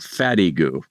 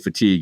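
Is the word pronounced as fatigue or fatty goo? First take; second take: fatty goo; fatigue. First: It is said as three syllables, fatty goo. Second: It is said as two syllables, fatigue. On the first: The speaker calls it wrong. "I just pronounced it like it looked" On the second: The speaker calls it right. "The word was fatigue"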